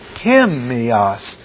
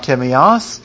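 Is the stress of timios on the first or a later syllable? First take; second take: first; later. First: The stress falls on the first syllable. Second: The stress falls on a later syllable. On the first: The speaker calls it right. "the T-I will be all in capitals because that's the stressed syllables" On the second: The speaker calls it wrong. "it's not timios"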